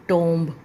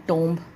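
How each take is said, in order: The two takes are said the same way.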